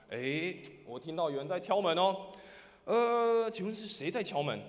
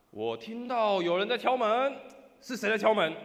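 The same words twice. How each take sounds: First: Raised, louder questioning voice; somewhat louder. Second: High, booming, drawn-out call; loud shout. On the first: Person inside asking who is knocking, somewhat louder. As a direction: call out a bit louder, politely asking. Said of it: "用大一点的声音说什么". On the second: Person inside challenging whoever knocks, loud shout. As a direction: demand loudly who is at the door. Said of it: "换里面人大声说". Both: Acted.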